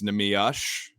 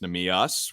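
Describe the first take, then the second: First: The name ends with a 'sh' sound. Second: The name ends with an 's' sound. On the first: This is how a stats website gives it. The speaker calls it wrong. "it says Nemiush, S H" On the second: This is how the team's staff gives it. The speaker calls it right. "Nemius without the H at the end"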